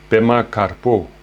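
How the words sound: The name is pronounced with Tibetan sounds.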